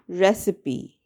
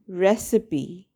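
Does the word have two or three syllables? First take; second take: three; three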